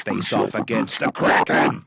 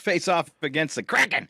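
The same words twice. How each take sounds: First: It is read in a spooky put-on voice. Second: It is read in a plain, normal voice.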